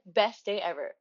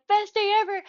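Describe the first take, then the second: First: Said in the usual way. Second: Best day ever shouted higher and louder; squealing Best day ever; overjoyed exclamation. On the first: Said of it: "The bag said". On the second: Retold or imitated. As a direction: burst out with pure joy. Overjoyed getting the candy.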